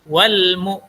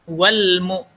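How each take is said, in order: No difference in how they are said.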